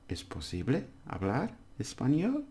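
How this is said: It is said with question intonation. It asks whether speaking Spanish is possible. "And then we do the question"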